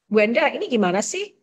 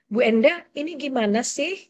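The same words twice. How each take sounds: First: It sounds loud and angry. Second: It sounds calm and not angry.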